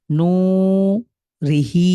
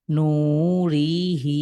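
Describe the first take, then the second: First: রিহি with a short রি and a long হি. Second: নু রিহি with রি held too long; wrong stretched reading. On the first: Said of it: "রিতে টান নাই বিধে আমরা টানছি না". (রিহি রি ছোট করে পড়া) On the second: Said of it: "এখানে আবার এমন করতে যাব না". (রিহি ভুলভাবে টেনে পড়া) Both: Shown as a demonstration.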